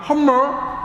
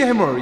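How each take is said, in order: First: The first vowel sounds like 'uh', tongue curled. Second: The first vowel sounds like 'ae'. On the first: The speaker calls it right. "이 혀를 최대한 말아서" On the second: The speaker calls it wrong. "이게 발음이 안 좋아요"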